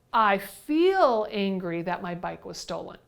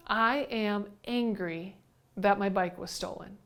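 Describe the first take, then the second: First: "feel" lengthened and lifted above the rest; stress on FEEL. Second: "I" and "am" picked out separately, quieter; deliberate stress on I AM. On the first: Teacher rewording the stolen-bike complaint, stressing "feel". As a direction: lean on "feel" in place of "am". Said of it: "We might feel angry". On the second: Teacher replaying a stolen-bike complaint, deliberately emphasized on "I am". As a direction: set "I am angry" apart, word by word. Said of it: "What you really just said there was". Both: Shown as a demonstration.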